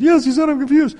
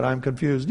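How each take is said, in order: First: Very high, loud mock-crying wife; tearful wife. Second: Said in the usual way. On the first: Wife confirms surgeon's words to husband, high mock-tearful squeal. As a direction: squeal it out, imitating an overwhelmed wife. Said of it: "and she starts crying".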